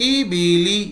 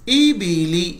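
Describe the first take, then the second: Both takes have the same delivery.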